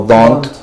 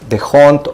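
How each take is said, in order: First: The name is said with a silent H. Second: The name is said with an H sound.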